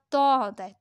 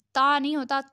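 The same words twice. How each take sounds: First: "تا" as a rounded "taw"; heavy t. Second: "تا" with an open aa; light t in "تا"; wrong thin t. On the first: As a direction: make "تا" full and heavy. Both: Shown as a demonstration.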